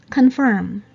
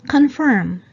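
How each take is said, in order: The two takes are said the same way.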